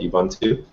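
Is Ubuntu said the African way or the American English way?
American. It is said with an American English pronunciation. "with my American English, we'd call it Ubuntu"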